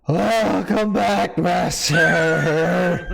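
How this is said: It is said in an uncalm, intense voice.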